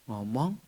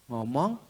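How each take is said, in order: Both takes have the same delivery.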